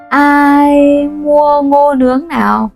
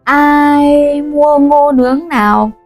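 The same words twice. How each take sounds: The two takes are said the same way.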